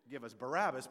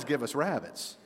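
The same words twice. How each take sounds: First: "Barabbas" said in full, bə-RA-bəs, softly; correct name. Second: "rabbits" in place of Barabbas, soft and amused; child's mishearing. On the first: Preacher correcting the boy's mishearing, saying "Barabbas" right. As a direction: give the proper name "Barabbas" quietly, every syllable. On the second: Preacher relishing the boy's mistake, saying "rabbits". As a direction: savor the funny "rabbits" version quietly. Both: Shown as a demonstration. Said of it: "not nearly as fun as".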